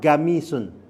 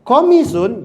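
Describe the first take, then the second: First: The word begins with a g sound. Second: The word begins with a deep q sound. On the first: "jadinya apa? Gamisun" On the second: "mengeja huruf Qaf itu menjadi ga"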